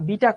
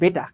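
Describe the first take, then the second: First: The first vowel sounds like 'ee'. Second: The first vowel sounds like 'ay'. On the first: The speaker calls it wrong. "আমরা বলি না বিটা কণা" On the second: The speaker calls it right. "কণাটার নাম হচ্ছে বেটা"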